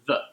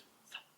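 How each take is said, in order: First: The th sound is voiced with buzzing vocal cords. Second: The th sound is voiceless, just air. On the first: "you turn your vocal cords on" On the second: "you don't use uh, the vibration at all"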